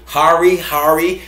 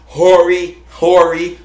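First: "Hari" said HAR-ee, with an AR vowel; second pronunciation option. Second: "Hori" said HOR-ee, with an OR vowel; first pronunciation option. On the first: Host offering names for the Japanese knife, "Hari" as HAR-ee. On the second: Host offering names for the Japanese knife, "Hori" as HOR-ee. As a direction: say "Hori" as HOR-ee, each one separate. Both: Shown as a demonstration. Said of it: "however you wanna pronounce it".

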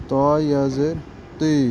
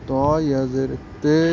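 First: তি with a long ee; maruf long ee. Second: তে with a long Bengali e; majhul e sound. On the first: Teacher drilling ya maruf for pupils, long ee. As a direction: spell it out, then a held 'tee' for তি. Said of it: "দীর্ঘিকারের আওয়াজটা আসবে". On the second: Teacher drilling ya majhul for pupils, e sound. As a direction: spell it out quickly, then a held 'tay' for তে. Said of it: "একারের আওয়াজটা আসবে". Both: Shown as a demonstration.

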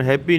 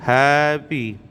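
First: ਹੈਪੀ run together as one word with a p; ਹੈਪੀ said like the English happy; ਹੈਪੀ as the common mistake; wrong pronunciation. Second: ਹੈ ਭੀ as two words, with a voiced bh; ਹੈ ਭੀ said clearly apart, bh not p; ਹੈ ਭੀ as it should be read; correct pronunciation. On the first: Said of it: "ਹੈਪੀ ਨਹੀਂ ਕਹਿਣਾ". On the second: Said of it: "ਹੈ ਭੀ ਕਹਿਣਾ ਹੈ". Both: Shown as a demonstration.

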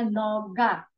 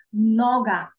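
First: "нога" slowly as no-HA, weight on the end; slow contrast take of "нога", end-stressed; Ukrainian final stress. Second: "Нога" loud on the first syllable, NO-ga; firm model NO-ga for "Нога"; penultimate stress. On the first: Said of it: "як в українській". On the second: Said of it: "на передостатнє слово". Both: Shown as a demonstration.

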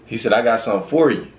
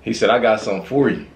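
No difference in how they are said.

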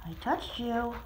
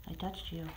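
First: Said in the usual way. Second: Soft hush. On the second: Real, not acted. Softly to nervous cat.

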